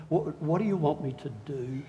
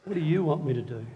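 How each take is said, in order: First: Soft, awed question; awed Paul. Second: Quicker, eager repeat; eager Paul. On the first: Paul to Jesus, hushed and awed. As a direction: ask it hushed, in awe of Jesus. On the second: Paul to Jesus, quick and eager. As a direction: ask again, ready to go. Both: Retold or imitated. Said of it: "Paul ... said".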